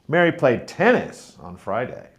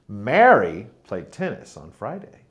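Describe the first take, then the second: First: The stress is on tennis. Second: The stress is on Mary.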